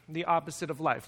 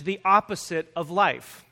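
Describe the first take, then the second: First: Soft, low echo of the title; quiet repeat. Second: Said in the usual way. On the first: Shown as a demonstration. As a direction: repeat it softly, letting it land. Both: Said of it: "I've entitled this message".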